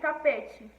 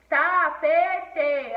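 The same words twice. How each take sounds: First: It is said normally, stressing the second syllable. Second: It is said slowly, stressing the first syllable. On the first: The speaker calls it right. "você tem que falar normalmente" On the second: The speaker calls it wrong. "o tá, falei mais forte?"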